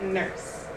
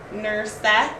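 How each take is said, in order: First: No extra vowel sound follows the word. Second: An extra vowel sound follows the word. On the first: The speaker calls it right. "he is very silent and he doesn't make a sound" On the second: The speaker calls it wrong. "You don't say nurse, eh, nurse, eh. That doesn't make sense"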